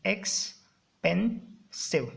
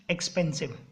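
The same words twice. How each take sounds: First: expensive very slowly, "ex - pen - sive", with gaps; split into syllables. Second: Said in the usual way. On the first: Shown as a demonstration. Teacher explaining what a syllable is, expensive broken apart. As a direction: break expensive into three detached beats. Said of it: "समझ गए syllable का मतलब". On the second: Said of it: "three syllable word हो गया जैसे".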